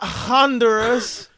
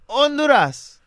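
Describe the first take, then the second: First: The word begins with a clear H sound. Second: The word begins without an H sound. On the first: The speaker calls it wrong. "It's not Honduras" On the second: The speaker calls it right. "The H is silent"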